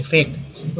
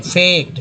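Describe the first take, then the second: First: fact breathed out without voice; whispered echo. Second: Said in the usual way. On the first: Shown as a demonstration. Teacher whispers fact as an echo. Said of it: "repeats word part softly". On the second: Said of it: "teacher repeats word part".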